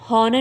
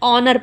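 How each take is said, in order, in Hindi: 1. शब्द की शुरुआत में h की आवाज़ बोली जाती है। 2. शब्द स्वर से शुरू होता है, h साइलेंट है। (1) "इसको हॉनर नहीं पढ़ेंगे" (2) "ऑनर पढ़ेंगे"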